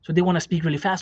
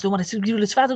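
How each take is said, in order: First: Said in the usual way. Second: Higher, garbled rapid-fire imitation; rushed speech. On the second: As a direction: race through it, swallowing the words. Mimics anxious people rushing their words.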